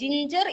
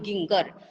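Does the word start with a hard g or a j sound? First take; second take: j sound; hard g. First: The word starts with a soft j sound. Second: The word starts with a hard g sound. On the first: The speaker calls it right. "ജിഞ്ചർ എന്നാണ് ശരിക്കും അതിന്റെ sound" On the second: The speaker calls it wrong. "ജീന്റെ sound അവർ പഠിച്ചു വെച്ചിട്ടുണ്ട് ഗ ആണ്"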